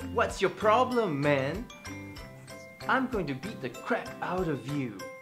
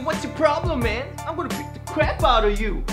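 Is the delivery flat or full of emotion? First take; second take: flat; emotional. First: It is said without much real emotion. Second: It is said with strong, aggressive emotion.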